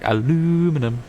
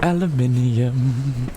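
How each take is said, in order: First: It is said the American way, four syllables. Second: It is said the British way, five syllables.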